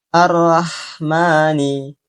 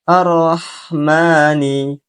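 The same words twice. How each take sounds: First: The r syllable sounds like a plain 'ra'. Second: The r syllable sounds like a full 'ro'. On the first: The speaker calls it wrong. "membaca huruf ro menjadi ra" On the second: The speaker calls it right. "yang benar"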